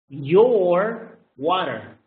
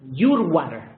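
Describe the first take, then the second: First: The word your sounds like yo. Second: The word your sounds like you. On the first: The speaker calls it right. "So the pronunciation is yo" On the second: The speaker calls it wrong. "not your water"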